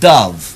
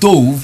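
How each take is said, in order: First: The vowel matches the one in cup. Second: The vowel differs from the one in cup. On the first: The speaker calls it right. "but dove" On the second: The speaker calls it wrong. "It's not dove"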